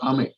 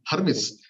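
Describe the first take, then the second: First: The name is said short, like 'Ame'. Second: The name is said in full, like 'Hermes'. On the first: The speaker calls it right. "It's called Ame" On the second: The speaker calls it wrong. "It's not Hermes"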